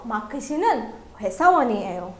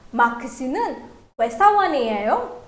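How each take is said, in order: First: "회사원이에요" stated with the tone going down; falling statement intonation. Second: "회사원이에요" ending on a clear upward question tune; rising question intonation. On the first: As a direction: let the pitch drop through "회사원이에요". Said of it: "the tone goes down". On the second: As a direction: let the tone climb at the end of "회사원이에요". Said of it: "the intonation goes up". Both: Shown as a demonstration.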